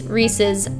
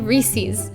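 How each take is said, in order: First: It is said the standard way. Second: It is said the Philly way.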